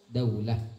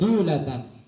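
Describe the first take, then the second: First: The first syllable has an 'au' glide. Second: The first syllable has a plain 'u' vowel. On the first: The speaker calls it wrong. "banyak orang membaca" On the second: The speaker calls it right. "dal di sini berbaris dhammah"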